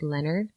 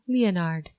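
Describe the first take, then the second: First: The name is said the plain English way. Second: The name is said with a French sound.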